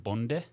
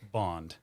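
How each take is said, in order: First: The surname is pronounced the Danish way. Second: The surname is pronounced the American way. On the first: "I have said it correctly in your native tongue" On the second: "as us less sophisticated Americans would say"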